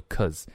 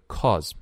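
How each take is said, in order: First: "cause" reduced to a schwa, like "cuz"; weak form. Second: Said in the usual way. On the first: Shown as a demonstration. Teacher showing learners the reduced word, weak form. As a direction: weaken the vowel of "cause" to "kuhz". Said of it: "我们会读成很弱的cause". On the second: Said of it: "这里的cause".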